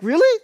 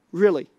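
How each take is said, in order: First: High, loud disbelieving "Really?" with a sharp rise; mock incredulous really. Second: Said in the usual way. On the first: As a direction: play the doubting listener with a squeaky "Really?". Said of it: "you're like".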